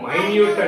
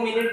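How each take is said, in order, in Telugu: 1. 'my' తర్వాత 'nyoot' అని పలుకుతారు. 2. ఇది రెండు చిన్న అక్షరాలుగా 'minnit' అని పలుకుతారు. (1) "దీన్నేమో మైన్యూట్ అంటారు" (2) "దీన్నేమో మినిట్ అంటారు"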